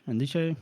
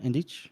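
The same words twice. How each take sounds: First: "Ndiche" with a final "shay" syllable; trying a pronunciation. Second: "Ndich" ending on the ch, no final vowel; trying a pronunciation. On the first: Unsure host tests the villain's name, "Ndiche" ending in "shay". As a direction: say "Ndiche" as en-dee-shay, questioning. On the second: Unsure host tests the villain's name, "Ndich" ending in ch. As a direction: say "Ndich" short, ending in ch, questioning. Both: Shown as a demonstration. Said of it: "Ndich, right?".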